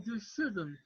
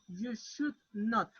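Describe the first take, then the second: First: Not is contracted onto should as one word. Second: Not is said as a separate full word.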